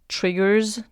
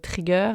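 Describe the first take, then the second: First: The word is said with an English accent. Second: The word is said with a French accent.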